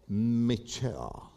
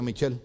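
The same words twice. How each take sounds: First: MICHELLE low and drawn out, final L melting away; English Michelle. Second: MICHELLE said quickly with a Spanish CH; low, short MICHELLE with a clear final L; Spanish-accented Michelle. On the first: Wife corrects her husband's pronunciation, careful English Michelle. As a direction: model MICHELLE slowly, softly, English style. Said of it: "Repeat after me". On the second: Pastor quotes his old way of naming her, Spanish-accented Michelle. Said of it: "y yo le decía". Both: Retold or imitated.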